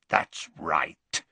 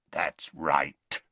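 First: Low werewolf rasp; Greyback rasp. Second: Lightly rasped, low werewolf voice. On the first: Greyback to Dumbledore, a smug low rasp. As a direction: rasp it smugly. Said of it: "said Greyback". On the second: Greyback to Dumbledore, a low rasp. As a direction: rasp it with menace. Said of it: "rasped the other". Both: Acted.

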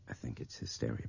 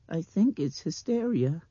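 First: Low, soft confidential voice; hushed, near whisper. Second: High, louder child's mimicry; mimicking little girl. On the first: Brian confiding in Nick, low and hushed. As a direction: murmur it close to his ear. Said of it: "He was whispering now". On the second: Blind girl repeating Brian's whisper, high mimicry. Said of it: "she mimicked". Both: A narrator's reading.

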